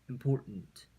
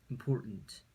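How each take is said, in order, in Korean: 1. 가운데 T는 세게, 거센소리로 발음합니다. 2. 가운데 T는 세게, 거센소리로 발음합니다.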